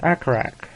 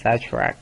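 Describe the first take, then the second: First: The middle consonant is a hard k sound. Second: The middle consonant is a ch sound. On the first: The speaker calls it wrong. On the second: The speaker calls it right.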